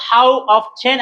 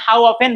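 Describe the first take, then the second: First: "how often" as how of-chen; sounded t. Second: "how often" as how off-en; silent t. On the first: Teacher shows both are correct, "often" with t sounded. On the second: Teacher shows both are correct, "often" with silent t. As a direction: leave the t out of "often". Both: Shown as a demonstration. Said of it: "both are correct".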